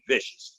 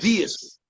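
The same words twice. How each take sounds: First: It is said plainly, without special emphasis. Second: It is said with heavy emphasis, like Mario.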